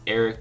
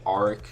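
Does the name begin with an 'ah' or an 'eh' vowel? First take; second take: eh; ah. First: The name begins with an 'eh' vowel. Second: The name begins with an 'ah' vowel. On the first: The speaker calls it right. "it's pronounced Eric" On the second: The speaker calls it wrong. "but I was saying Arik"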